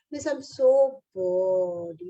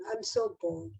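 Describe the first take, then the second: First: Slow, drawn-out whine of a bored pupil; whiny bored child. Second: Higher, softer, sighing whine; whiny bored child. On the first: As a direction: stretch it out like a bored kid. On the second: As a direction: let the complaint drift up and fade. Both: Retold or imitated. Bored child voiced in class.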